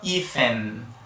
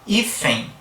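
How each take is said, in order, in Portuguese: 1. A palavra termina com um som de 'n'. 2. A palavra termina com uma semivogal 'i'. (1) "Ninguém fala hífen, né, terminando com fonema N" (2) "observa que tem um i também no final"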